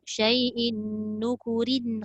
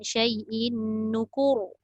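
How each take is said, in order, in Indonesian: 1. Bunyi r itu ringan dan tipis, lalu berlanjut. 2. Frasa itu berakhir dengan bunyi r yang berat dan tebal. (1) "Sambung... dia jadi nipis"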